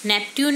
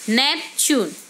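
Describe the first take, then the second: First: The middle consonant is a plain 't' sound. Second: The middle consonant is a 'ch' sound. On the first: The speaker calls it wrong. "नेपट्यून नहीं" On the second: The speaker calls it right.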